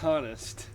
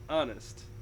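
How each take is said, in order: First: The word starts with an audible H sound. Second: The word starts with a vowel, H silent. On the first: The speaker calls it wrong. "it's not honest. It's not Harry" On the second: The speaker calls it right. "It's honest"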